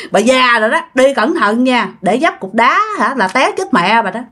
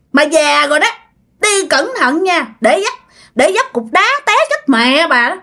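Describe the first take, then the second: First: Said in the usual way. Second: Put-on possessed girl's voice. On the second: Possessed girl mocking old bà O, high sneering voice. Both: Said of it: "Nói vậy các bạn".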